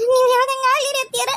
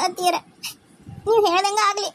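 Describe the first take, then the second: First: Higher, louder, breaking into sobs; crying plea. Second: Held-back tears, still near her normal voice; tearful. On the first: Daughter-in-law gives in to mother-in-law, sobbing. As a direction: let the tears take over on the repeat. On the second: Daughter-in-law yields to her mother-in-law, tearfully. Tearful agreement, first take. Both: Acted.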